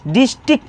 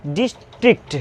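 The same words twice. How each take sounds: First: डिस्ट्रिक्ट as "distik", no R, no final T; common silent-letter reading. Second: डिस्ट्रिक्ट in two parts, with R and final T sounded; full real pronunciation. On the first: Teacher shows how we usually read it, डिस्ट्रिक्ट reduced to "distik". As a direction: drop R and last T from डिस्ट्रिक्ट. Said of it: "अक्सर क्या पढ़ते हैं". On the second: Teacher shows what the word really is, डिस्ट्रिक्ट fully articulated. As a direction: say डिस्ट्रिक्ट carefully as "dis-trikt", every consonant heard. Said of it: "ये होता है क्या वास्तव में". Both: Shown as a demonstration.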